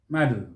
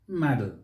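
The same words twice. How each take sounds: First: It is said with an American pronunciation. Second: The same.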